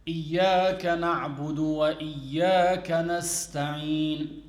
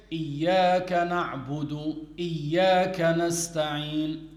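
First: Said in the usual way. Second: "إياك نستعين" with no "وَ" joining it on; waw left out. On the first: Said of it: "For instance, you say". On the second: Shown as a demonstration. Teacher showing an invalid recitation, waw left out. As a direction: drop the linking wa before the second "إياك". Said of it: "so he missed out the waw".

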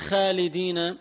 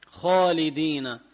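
First: خالدين with a thin, fronted "khaa"; wrong thin خ. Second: خالدين with a thick, backed "khoo"; heavy خ. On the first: Teacher showing the mistake, خالدين with a thin خ. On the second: Teacher correcting the mistake, خالدين with heavy خ. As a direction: fill out the خ of خالدين, rounded and heavy. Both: Shown as a demonstration. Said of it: "ما بقول خالدين".

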